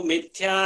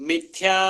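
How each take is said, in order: The two takes are said the same way.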